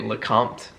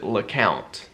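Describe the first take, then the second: First: The last syllable sounds like 'comt'. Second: The last syllable sounds like 'count'. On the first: This follows the spelling of the name. "I have come to say Lecomte because yeah. that's how it's spelled" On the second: This is how the family says the name. "our family pronounces it LeCount"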